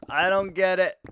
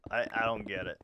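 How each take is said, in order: First: Higher and louder, DON'T hit hard; loud baffled protest; exasperated outburst. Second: Said in the usual way. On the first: Real, not acted. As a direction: blurt it out in disbelief.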